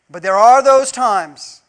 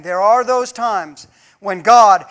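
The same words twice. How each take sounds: First: Slow, heavy stress on "those"; stress on those times. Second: Slow, louder repeat with "those" leaned on; stress on those times. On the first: Preacher repeating for emphasis, stressing "those". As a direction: lean hard on "those times". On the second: Preacher repeats the line, stressing "those times". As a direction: drag out "those times when God" for weight. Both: Shown as a demonstration. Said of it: "and I'll say it again".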